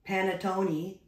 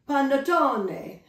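First: It is said with a plain, flat English accent. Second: It is said with a strong, exaggerated Italian accent. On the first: "but I will not say panettone either" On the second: "I promise I won't say it like that every time"

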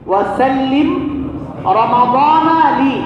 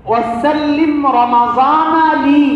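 No difference in how they are said.

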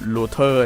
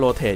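First: The word ends with an 'er' sound. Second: The word ends with an 'ate' sound. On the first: The speaker calls it wrong. "อย่าอ่าน" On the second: The speaker calls it right. "อ่านถูกแล้ว"

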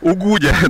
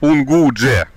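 First: No n sound comes before the g. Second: An n sound comes before the g. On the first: This is how local people actually say it. The speaker calls it right. "Местные говорят Угудя" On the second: This is how the name is written. The speaker calls it wrong. "Вообще пишут Унгудже"

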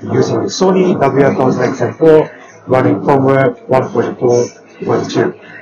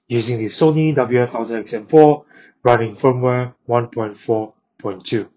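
First: The voice is heard with a noisy background. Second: The voice is heard with a quiet background. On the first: "making a phone call in a noisy place" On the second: "making a phone call in a quiet place"

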